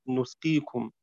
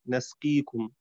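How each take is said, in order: First: نسقيكم with the first n rounded to u, nusqīkum; نسقيكم read nusqīkum, damma on the nun. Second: نسقيكم with the first n on an open a, nasqīkum; نسقيكم read nasqīkum, fatha on the nun. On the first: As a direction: say نسقيكم starting nu-. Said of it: "بضمها". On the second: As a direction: say نسقيكم starting na-. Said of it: "بفتح النون". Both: Shown as a demonstration.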